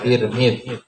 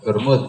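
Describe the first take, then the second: First: The first two vowels are i sounds. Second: The first two vowels are u sounds. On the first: "Jadi kalau Tirmidzi sama-sama di kasrah ya" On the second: "Kalau dhammah sama-sama dhammah"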